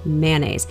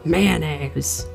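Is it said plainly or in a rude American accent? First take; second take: plainly; rude American. First: It is said in the speaker's plain voice. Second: It is said in a rude, abrasive American accent.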